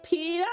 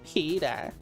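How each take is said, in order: First: It is screamed loudly. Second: It is spoken at normal volume.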